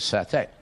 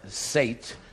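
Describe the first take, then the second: First: The word ends with an 'ay' vowel. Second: The word ends with a 't' sound. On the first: It is the actual pronunciation of the dish. The speaker calls it right. "but it's pronounced as satay" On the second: It is read the way it is spelled. The speaker calls it wrong. "as if it were sate"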